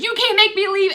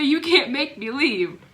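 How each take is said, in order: First: High, loud defiant retort; defiant grandma. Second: Mocking grandma. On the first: Retold or imitated. Grandma refusing grandpa, loud and high defiance. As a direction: dig in your heels like a stubborn grandma. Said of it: "grandma looks at him and says". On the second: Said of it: "and say".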